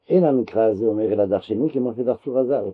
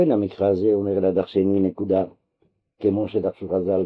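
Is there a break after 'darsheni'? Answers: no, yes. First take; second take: no; yes. First: The phrase runs on without a break after 'darsheni'. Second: The phrase breaks with a full stop after 'darsheni'. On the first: The verse must be expounded exactly as the rabbis expounded it. The speaker calls it right. "אלא" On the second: The verse simply asks to be expounded, and the rabbis' readings are examples. The speaker calls it wrong. "זה לא"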